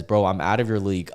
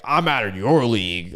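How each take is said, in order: First: Said in the usual way. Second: Lightly put-on mock comeback; mocking the insulted. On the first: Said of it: "And then she says". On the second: Host imitating nice girls and guys who get insulted, mocking. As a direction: imitate an offended person's comeback. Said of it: "Anytime that they get insulted, they're like".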